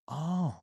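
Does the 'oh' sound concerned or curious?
concerned. It sounds concerned, with a lower pitch. The listener is reacting to an emotional problem. "that's more concern"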